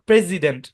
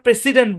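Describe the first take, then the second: First: The middle consonant is a buzzing z sound. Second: The middle consonant is a hissing s sound. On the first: The speaker calls it right. "কিন্তু এটার উচ্চারণ প্রেসিডেন্ট" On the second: The speaker calls it wrong. "এটাকে আমরা প্রেসিডেন্ট বলি"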